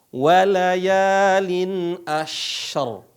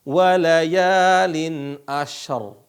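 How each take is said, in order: The two takes are said the same way.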